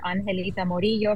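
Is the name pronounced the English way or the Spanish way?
Spanish. The name is pronounced with Spanish sounds.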